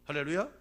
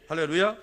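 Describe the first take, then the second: First: Said in the usual way. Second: Loud rising call for a response; louder hallelujah call. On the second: Real, not acted. (더 크게 외치는 할렐루야)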